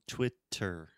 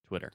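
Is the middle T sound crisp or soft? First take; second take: crisp; soft. First: The middle T is a crisp, released T. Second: The middle T is a soft, quick tap. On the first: "with a true T, like table" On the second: "we just say Twitter"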